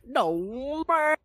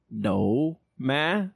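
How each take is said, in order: First: It is said in a rural countryside accent. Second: It is said in a standard accent.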